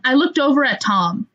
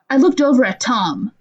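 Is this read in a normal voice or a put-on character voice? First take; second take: normal; character voice. First: It is read in the speaker's normal voice. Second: It is read in a put-on character voice.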